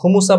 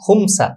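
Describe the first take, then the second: First: A u vowel is heard after the m. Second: No vowel is heard after the m. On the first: "মিমে পেশ দিয়ে" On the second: "মিমে সাকিন"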